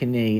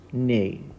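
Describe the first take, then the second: First: The word starts with a sounded K. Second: The word starts with only an N sound. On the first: The speaker calls it wrong. "we don't pronounce it knee" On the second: The speaker calls it right. "It's pronounced knee. So just the N sound"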